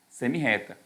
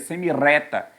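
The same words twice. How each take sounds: First: The middle r is a strong rough sound. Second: The middle r is a soft single tap. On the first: The speaker calls it right. "Dobra o R" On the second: The speaker calls it wrong. "o R entre vogais tem esse som, ó. R, você leria semi-reta"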